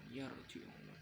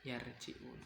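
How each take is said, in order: First: The r sound is thick and heavy. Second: The r sound is thin and light. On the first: The speaker calls it right. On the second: The speaker calls it wrong.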